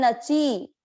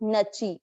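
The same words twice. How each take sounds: First: The final vowel is drawn out long. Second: The final vowel is kept short. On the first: The speaker calls it wrong. "एक हम बोलते हैं नची" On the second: The speaker calls it right. "कैसे पढ़ना है इसको?"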